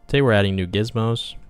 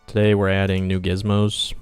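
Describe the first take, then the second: First: It is said in a higher, perkier voice. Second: It is said in a lower, plainer voice. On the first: The speaker calls it right. "I have to do the YouTuber" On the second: The speaker calls it wrong. "I don't want to be like"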